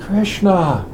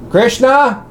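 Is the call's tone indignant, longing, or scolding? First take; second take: longing; scolding. First: The name is called out in a longing tone. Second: The name is called out in a scolding tone. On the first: The caller misses someone and is searching. "How does Radharani call Krishna when she can't find him?" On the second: The caller is fed up with repeated misbehavior. "what did Mother Yashoda say when Krishna had stolen the butter again?"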